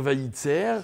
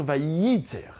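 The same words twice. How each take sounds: First: Vaïtser said lightly, tz not doubled; Vaïtser with a single quick tz, no insistence; wrong pronunciation. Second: Vaïtser with the tz doubled and stressed; Vaïtser, lean on the doubled tz, slowly; doubled consonant. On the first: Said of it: "je ne suis pas censé dire". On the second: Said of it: "je suis censé dire". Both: Shown as a demonstration.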